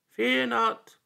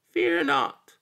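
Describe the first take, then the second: First: High, louder little voice from the dark; small voice. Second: Very high, louder tiny voice; a little creature calling again in the dark; small voice. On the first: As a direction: call out as a tiny creature in the dark. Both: A narrator's reading. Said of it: "came a small voice in the dark".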